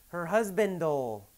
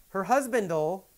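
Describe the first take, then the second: Both takes have the same delivery.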